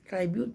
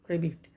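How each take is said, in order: First: The first syllable has a long 'eye' vowel. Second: The first syllable has a short 'ih' vowel. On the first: The speaker calls it wrong. "जिसको हम लोग पढ़ते हैं ट्राइब्यूट पढ़ देते हैं" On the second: The speaker calls it right. "हम इसे पढ़ते हैं ट्रिब्यूट"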